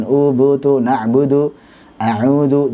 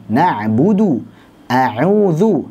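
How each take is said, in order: First: "U, bu, tu" with the lips barely rounded; a slack, half-rounded "na'budu"; lazy U. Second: "Na'budu, a'udhu" with the lips pushed well forward; "na'budu" with a full, pouted U; fully rounded U. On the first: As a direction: demo the lazy way, lips hardly moving. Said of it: "Jangan malas-malasan". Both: Shown as a demonstration.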